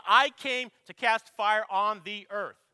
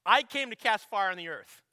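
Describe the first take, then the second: First: Slow and loud, every word of "I came to cast fire on the earth" leaned on; slow weighty proclamation. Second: Loud proclamation. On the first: Preacher repeating the verse, slow heavy emphasis. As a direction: drag it out loud, pressing each word home. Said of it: "Jesus just says". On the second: Preacher to congregation, loud declaration. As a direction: ring out the verse boldly to the congregation. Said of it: "he simply says this". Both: Shown as a demonstration.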